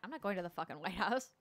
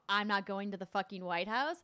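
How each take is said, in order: First: It is muttered quietly under the breath. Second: It is said loudly and aggressively.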